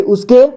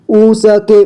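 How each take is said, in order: First: Said in the usual way. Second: "उसके" split as u-sa-ke; beginner's reading of "उसके" as u-sa-ke; sounded out letter by letter. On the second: Shown as a demonstration. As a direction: voice the sa separately in "उसके". Teacher sounds out, then reads whole.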